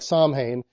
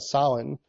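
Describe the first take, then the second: First: The middle sound is an M with closed lips. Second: The middle sound is nasal, without closing the lips. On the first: "it's spelled what looks like Samhain" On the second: "more like an M without putting your lips together"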